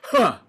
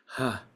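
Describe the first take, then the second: First: It is a hard, sharp, punched burst. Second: It is airy, with lots of breath.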